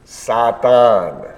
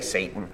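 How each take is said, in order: First: The word is said with Hebrew vowel sounds. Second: The word is said with English vowel sounds. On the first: "Everybody say the Hebrew" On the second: "We say Satan. We just change the vowel sounds a little bit"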